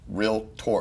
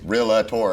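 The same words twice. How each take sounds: First: The word is said with two syllables. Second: The word is said with an extra third syllable. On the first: The speaker calls it right. "it's realtor" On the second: The speaker calls it wrong. "everybody always says realtor ... there's not a that third syllable"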